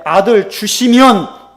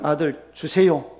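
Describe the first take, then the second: First: "아들 주시면" loud, high and slow; stress on 주시면. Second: Said in the usual way. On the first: Shown as a demonstration. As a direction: punch "아들 주시면" as the changed condition. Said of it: "이건 달라진 거예요". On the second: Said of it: "그 기도는".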